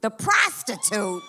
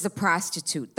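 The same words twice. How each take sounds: First: PROSTITUTE stretched out slowly, punched on the first syllable; slow, disbelieving stress on PROSTITUTE; incredulous echo. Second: Said in the usual way. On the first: Acted. Comic repeats the agent's answer, incredulous stress on PROSTITUTE.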